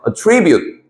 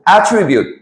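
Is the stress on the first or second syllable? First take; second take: second; first. First: The stress is on the second syllable. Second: The stress is on the first syllable. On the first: It is a verb meaning to credit something to a cause. "액센트를 이음절 정도에 주고요" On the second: It is a noun meaning a quality or feature. "액센트를 앞에 주고 attribute 이런 식으로 명사로"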